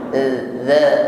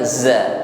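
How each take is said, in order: First: The consonant is soft, with no hiss. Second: The consonant is a hissing z sound. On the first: The speaker calls it right. "tidak berdesis" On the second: The speaker calls it wrong. "bukan za, tidak berdesis"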